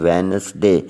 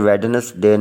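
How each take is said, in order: First: The first d is silent. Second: The first d is clearly sounded. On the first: The speaker calls it right. "डी silent है" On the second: The speaker calls it wrong. "इसे वेडनेसडे नहीं पढ़ना"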